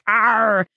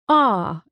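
First: The R sound is exaggerated like a pirate's. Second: The letter is said without any R sound.

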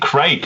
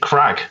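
First: The vowel is a long 'ay' sound. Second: The vowel is a short 'a' sound. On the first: This is not how Americans say it. "they don't really say Craig" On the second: This is how Americans say it. "they say Crag"

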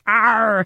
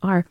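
First: The R is exaggerated and growled like a pirate. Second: The R is said plainly without exaggeration. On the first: The speaker calls it wrong. "except sounding like a pirate" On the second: The speaker calls it right. "no, it's just R"

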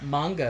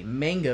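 First: It is pronounced the Japanese way. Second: It is pronounced the Western way. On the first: The speaker calls it right. "if you're pronouncing it correctly" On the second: The speaker calls it wrong. "with a fat Western tongue"

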